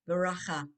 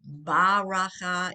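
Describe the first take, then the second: First: The first b has no vowel after it. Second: A full 'ah' vowel follows the first b. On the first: The speaker calls it right. "It's b, just the sound of the of the bet" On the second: The speaker calls it wrong. "you don't have an ah under it. You don't say baracha"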